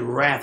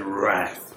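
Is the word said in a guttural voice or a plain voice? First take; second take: plain; guttural. First: The word is said in a plain, ordinary voice. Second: The word is said in a rough, guttural voice. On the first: "We don't say wrath" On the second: "Get a real guttural"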